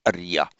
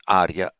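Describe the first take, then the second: First: Arya as a-ri-ya, short first vowel; Prakrit pronunciation. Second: Arya with a long, heavy first syllable; Sanskrit long vowel. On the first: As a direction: say arya as uh-REE-ya. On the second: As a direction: say arya as AAR-ya. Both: Shown as a demonstration. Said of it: "Prakrit speakers of that time pronounce".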